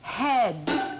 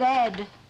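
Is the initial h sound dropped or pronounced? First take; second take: pronounced; dropped. First: The word begins with a clear h sound. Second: The word begins with no h sound. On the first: The speaker calls it right. "Head, with a capital H" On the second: The speaker calls it wrong. "You said Ed"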